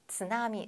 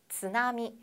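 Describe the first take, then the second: The two takes are said the same way.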